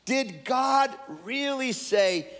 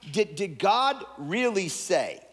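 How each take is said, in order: First: Slow, much higher, taunting question; sly serpent sowing doubt, pitched up; mocking serpent. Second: Said in the usual way. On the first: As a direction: needle her with it, drawn out. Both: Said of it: "so he said to the woman".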